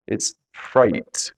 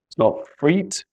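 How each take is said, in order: First: Freight said with a long ay sound; right reading freight. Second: Freet said with a long ee, pitched up; wrong reading freet. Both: Shown as a demonstration.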